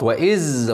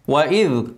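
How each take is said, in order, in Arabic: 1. اللسان يبقى في الخلف في الصوت الأخير. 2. اللسان يلمس الأسنان في الصوت الأخير. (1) "اوعى تدخله جوه يبقى غلط" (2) "الذال لازم لساني يلمس سناني"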